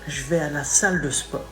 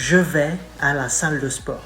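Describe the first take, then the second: Both takes have the same delivery.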